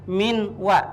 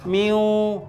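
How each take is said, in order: First: The n is sounded clearly before the w. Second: The n merges into a nasal w sound. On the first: The speaker calls it wrong. "jadi bacaannya bukan min wa" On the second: The speaker calls it right. "tapi masuk ke huruf waw ya"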